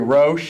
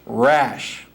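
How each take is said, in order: First: The surname is said with an 'o' vowel. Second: The surname is said with an 'a' vowel. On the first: The speaker calls it wrong. "I'm big on the O, ... it's not Terry Roche" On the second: The speaker calls it right. "you're saying it's got a little bit more A"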